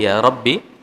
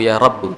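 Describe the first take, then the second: First: The last word ends in an 'ee' vowel. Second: The last word ends in an 'oo' vowel. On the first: "bisa dibaca ya Rabbi" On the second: "Bisa juga dibaca dengan ya Rabbu"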